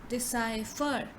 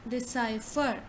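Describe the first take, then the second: The two takes are said the same way.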